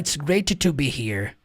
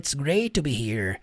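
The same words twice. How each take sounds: First: The two T sounds are pronounced separately. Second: The two T sounds merge into one. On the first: The speaker calls it wrong. "Ele não fala" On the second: The speaker calls it right. "ele fala"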